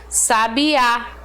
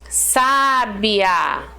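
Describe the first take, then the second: First: The stress is on the last syllable. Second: The stress is on the first syllable. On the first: It names a bird. "A força fica na última aqui" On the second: It describes a wise person. "uma pessoa sábia"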